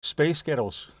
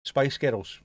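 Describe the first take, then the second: First: Lightly put-on American accent. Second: Lightly put-on Glaswegian accent. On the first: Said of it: "Do it in an American accent". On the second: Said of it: "saying a girl band's name in a Glaswegian". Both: Shown as a demonstration.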